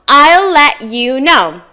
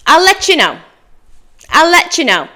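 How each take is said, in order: First: Slow "I'll let you know", each word separate; "I'll let you know" with "let" and "you" kept apart; careful full form. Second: "I'll let you know" as higher, quicker "ull letchoo know"; native linked form. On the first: Teacher reviews the last phrase, slow careful form. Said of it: "go over those common phrases again". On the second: Teacher models for learners to repeat, linked form. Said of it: "Your turn". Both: Shown as a demonstration.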